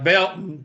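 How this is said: The t sound in the middle is dropped. A local says it. "it don't even have a T in it"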